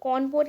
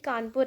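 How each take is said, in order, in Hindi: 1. यह नाम ब्रिटिश उच्चारण में बोला गया है। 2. यह नाम भारतीय उच्चारण में बोला गया है।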